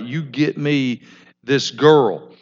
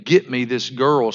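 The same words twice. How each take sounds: First: A slow, pushy order, not a request; demanding order. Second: Said in the usual way. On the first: Acted. Son orders his father, mildly bossy. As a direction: insist on it, don't ask. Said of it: "it's not like he's asking his father. He's like". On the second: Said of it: "and now he's saying".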